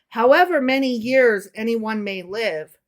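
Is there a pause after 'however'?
no. There is no pause after 'however'.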